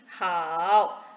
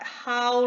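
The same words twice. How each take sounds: First: The pitch dips low, then rises. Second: The syllable has no dipping pitch. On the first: "how with the third sound mean how" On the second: "the pronunciation is about like how"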